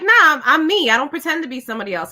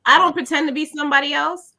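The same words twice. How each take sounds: First: Brisk, offhand denial; quick dismissal. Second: Measured, reconsidering, left open; second thought. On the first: Guest recalls nearly falling into the trap, quick dismissal. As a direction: brush it off quickly, falling at the end. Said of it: "And then I stopped and I thought". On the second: Guest stops and thinks it over, measured reconsidering. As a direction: say it thoughtfully, rising toward a coming "but". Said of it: "I stopped and I thought". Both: Retold or imitated.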